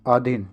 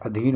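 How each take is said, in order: First: आधीन with long opening aa; wrong long aa. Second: अधीन with short opening a; correct short a. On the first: Teacher shows students the mistake, long aa in आधीन. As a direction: stretch the first vowel in आधीन. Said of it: "ये तो आधीन है". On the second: Teacher gives the right spelling, short a in अधीन. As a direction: keep the first vowel short in अधीन. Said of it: "अधीन होता है". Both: Shown as a demonstration.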